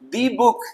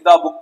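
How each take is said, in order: First: 'The' is said with a long 'thee' sound. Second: 'The' is said with a short 'thuh' sound. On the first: That one specific book. "तो द नहीं दी" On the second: Just a book, nothing special. "Simply द book पढ़ेंगे"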